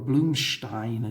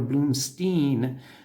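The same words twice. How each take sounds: First: The name is pronounced the Slovak way. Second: The name is pronounced the North American way. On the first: "as you would say here in Slovakia" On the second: "we would say Blumstein or Blumstein uh, in North America"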